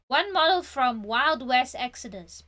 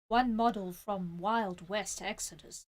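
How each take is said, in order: First: It is read in a natural speaking voice. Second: It is read in a put-on character voice.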